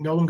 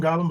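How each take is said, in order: First: "Golem" with a long o, like goal; long-o pronunciation. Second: "Golem" with an open ah in the first syllable; short-o pronunciation. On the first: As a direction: say "Golem" as GOH-lum. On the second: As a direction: say "Golem" as GAH-lum. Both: Shown as a demonstration. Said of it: "how you pronounce it".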